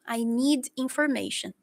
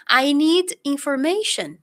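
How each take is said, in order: First: Said in the usual way. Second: Slowly and clearly, stressing need; slow English demo. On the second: Shown as a demonstration. Teacher modelling the phrase for students, slow and clear. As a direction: say "I need information" slowly, leaning on "need". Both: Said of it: "eu preciso informação".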